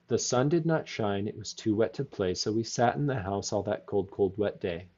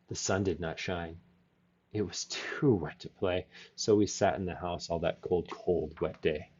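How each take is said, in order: First: It is read plainly, without much expression. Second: It is read expressively, with cold said differently.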